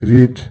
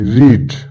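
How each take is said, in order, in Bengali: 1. শব্দটি সহজভাবে বলা হচ্ছে, বাড়তি জোর ছাড়া। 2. শব্দটি একটু জোর দিয়ে বলা হচ্ছে। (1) "আমরা বলি রিড" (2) "একটু জোর দিয়ে বলবো"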